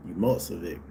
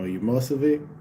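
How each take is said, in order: First: Umocevic said as a settled, falling statement; best American accent. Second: Umocevic with a higher, rising questioning end; questioning pronunciation. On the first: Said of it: "That's my best American accent". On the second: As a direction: try out Umocevic as a question, lifting the last syllable. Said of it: "I say it right?". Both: Real, not acted.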